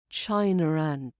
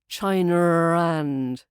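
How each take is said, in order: First: A light, soft R links the two words. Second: A heavy, growled R links the two words. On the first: The speaker calls it right. "It should be a light tap" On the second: The speaker calls it wrong. "not a growl"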